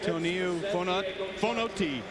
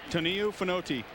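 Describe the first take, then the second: First: The name is said at a slower pace. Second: The name is said at a quick pace. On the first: The speaker calls it wrong. "you blew that one" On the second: The speaker calls it right. "You said it fast enough"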